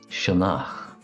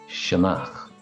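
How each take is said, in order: No difference in how they are said.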